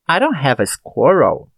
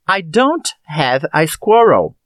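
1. As palavras são ditas juntas, com sons reduzidos. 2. Cada palavra é dita separadamente e por completo. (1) "Um pouco mais natural" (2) "Comparando as duas frases"

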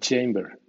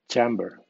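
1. La primera vocal suena como la letra A. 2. La primera vocal es un sonido de 'a' breve. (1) "pues suena Chamber" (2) "Debería haber sonado Chamber"

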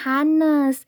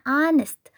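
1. Bunyi h di awal dibaca. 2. Bunyi h di awal tidak dibaca. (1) "bukan honest ataupun honest" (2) "tapi yang benarnya itu bacanya honest"

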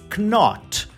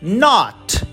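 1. A palavra começa com som de K. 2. A palavra começa com som de N. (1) "a gente não diz knot" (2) "a gente suprime a letra K e diz not"

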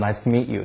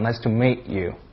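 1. 这是美式口音。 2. 这是伦敦口音，元音拖得比较长。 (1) "美国人都说nice to meet you" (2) "就是那种有点夸张nice to meet you"

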